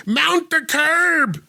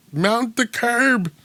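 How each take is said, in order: First: Slow, high, drawn-out American cop line; Gary Oldman impression. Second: Slow, higher mock cop line; mock a British actor playing a cop; Brit's American cop voice. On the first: Podcast host imitating Gary Oldman's cop line, slow and high. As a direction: drag it out like a stiff movie cop. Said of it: "that's my Gary Oldman". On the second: Host mocking the line, slow and high. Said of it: "written by someone British trying to sound like an American cop".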